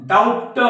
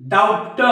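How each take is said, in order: The two takes are said the same way.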